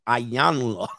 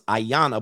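First: The name is said with an L sound. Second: The name is said without any L sound. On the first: "but it looks like Ayanla" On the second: "Is the L silent? I always thought it was Ayana"

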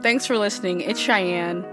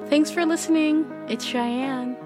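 First: It is said in a natural, everyday voice. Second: It is said in a put-on, unusual voice. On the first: The speaker calls it right. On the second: The speaker calls it wrong.

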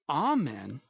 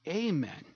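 First: It starts with an open 'ah' vowel. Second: It starts with a long 'ay' vowel. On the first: "you must say amen" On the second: "not amen. As though God's ears cannot hear the long A sound"

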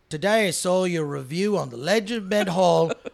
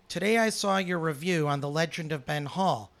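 First: It is read in a put-on Australian accent. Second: It is read in the speaker's normal accent.

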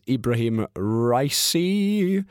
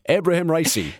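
First: The name is said hesitantly and nervously. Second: The name is said firmly and confidently. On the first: The speaker calls it wrong. "He sounds so nervous about saying his name" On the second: The speaker calls it right. "Much better"

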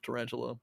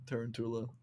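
First: It is said with an English-style pronunciation. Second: It is said with a Latin-style pronunciation. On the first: The speaker calls it wrong. "instead of Tarantula" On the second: The speaker calls it right. "it was Latin and then it would be Tarantula"

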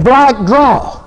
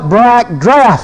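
First: The second word ends without an f sound. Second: The second word ends with an f sound. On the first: This is the older, homely way people said it. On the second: This is the newer, fancier way people say it.

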